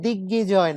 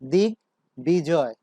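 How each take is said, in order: First: The b sound is dropped after the g. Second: The b sound is fully pronounced after the g. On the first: The speaker calls it wrong. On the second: The speaker calls it right.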